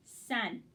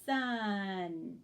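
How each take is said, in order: First: Sun said quickly as one word; no pause inside Sun; smooth blend. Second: Sun drawn out slowly sound by sound; sounds stretched apart. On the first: Teacher modeling the perform step. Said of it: "I blended the word". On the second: Teacher modeling the rehearse step. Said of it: "That was rehearsed". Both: Shown as a demonstration.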